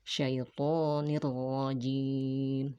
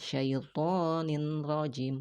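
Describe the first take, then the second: First: The n merges into r with no nasal hum. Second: The n is pronounced clearly before the r. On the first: The speaker calls it right. "digabungkan dengan huruf ro tanpa adanya gunnah" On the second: The speaker calls it wrong. "bukan syaitonin rajim"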